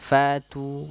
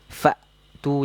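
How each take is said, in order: First: The glottal stop is weak and barely heard. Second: The glottal stop is held firmly and clearly. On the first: The speaker calls it wrong. "ini kurang kuat sifat syiddahnya" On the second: The speaker calls it right. "jadi hamzahnya itu kuat"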